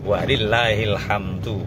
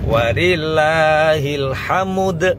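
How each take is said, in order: First: The last word ends with a clear 'du'. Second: The last word ends with 'ud' sounds. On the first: "susunan yang benar" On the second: "nek wakof nakol dadi"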